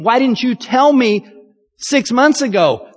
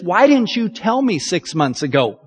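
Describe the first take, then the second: First: Exasperated repeat. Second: Said in the usual way. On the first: Shown as a demonstration. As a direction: push the repeat with frustration. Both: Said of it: "If you know the end from the beginning".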